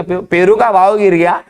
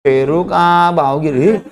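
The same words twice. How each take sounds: First: Brisk imitated seller's announcement; hawking vendor. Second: Slow, stretched-out street cry; hawking vendor. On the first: Seller answers what has fallen, lightly imitated hawker's call. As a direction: announce it like a fruit hawker, at normal pace. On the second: Retold or imitated. Seller repeats the guava price drop, slow drawn-out hawking. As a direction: draw each word out like a hawker's chant. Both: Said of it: "जोर जोर से चिल्ला रहा है".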